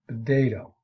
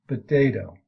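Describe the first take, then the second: First: The first sound is a voiced B. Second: The first sound is a voiced B.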